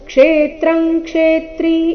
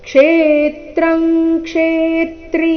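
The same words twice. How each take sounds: First: The first syllable kshe is not stressed. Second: The first syllable kshe is stressed. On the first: The speaker calls it wrong. "ಈ ರೀತಿ ಇಲ್ಲ" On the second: The speaker calls it right. "ಕ್ಷೇ ಈ ಅಕ್ಷರದ ಮೇಲೆ ಆಘಾತ ಬರಬೇಕು"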